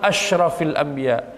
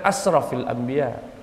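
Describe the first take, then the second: First: The first word has a 'sh' sound. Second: The first word has a plain 's' sound. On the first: The noblest of the prophets. The speaker calls it right. "Itu yang betul" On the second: The prophet who most exceeds the limits. The speaker calls it wrong.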